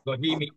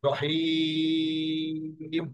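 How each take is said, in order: First: It ends on a short vowel after m. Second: It ends on m with a lengthened long vowel. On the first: The reading continues without a stop. "জেরের পরে ইয়া আছে, এই জন্য এটা হবে রহিমি" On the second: The reader stops at the end of the verse. "যখন টুকুন দিয়ে থামবো তাহলে কি হবে?"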